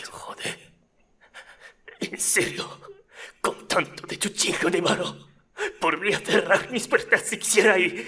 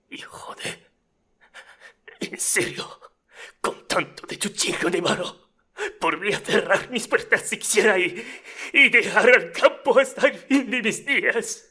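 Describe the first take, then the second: First: Rough and emotional, building up high; snarky audition retake. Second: Rough, snarky, rising to a loud high peak; emotional snarky audition. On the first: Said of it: "I forgot to change my pronunciation of cerrar". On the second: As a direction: start hushed, build to a high loud outburst. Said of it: "Let's say that's my audition here". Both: Acted.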